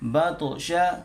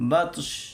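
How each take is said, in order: First: The word ends with a vowel sound. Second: The word ends with a consonant sound. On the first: The reading continues without stopping. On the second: The reader stops at this word.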